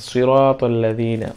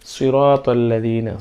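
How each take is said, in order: The two takes are said the same way.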